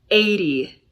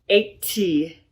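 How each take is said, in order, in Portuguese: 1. O t do meio é um t batido suave. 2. O t do meio é um t claro.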